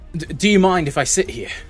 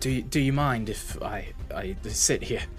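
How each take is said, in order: First: It is said with more energy and gusto. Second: It is said plainly, with little energy.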